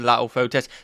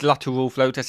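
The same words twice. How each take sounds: First: The T in lateral is dropped. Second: The T in lateral is clearly pronounced. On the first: The speaker calls it wrong. "I miss a T out of lateral" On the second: The speaker calls it right. "It's lateral flow test, isn't it?"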